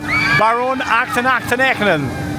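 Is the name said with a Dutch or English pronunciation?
Dutch. The name is said with Dutch pronunciation.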